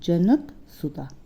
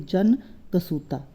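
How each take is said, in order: First: The word is split after the syllable 'janak'. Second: The word is split after the syllable 'jan'. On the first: The speaker calls it right. "कैसे पढ़ेंगे हम" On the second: The speaker calls it wrong. "ऐसे नहीं पढ़ेंगे"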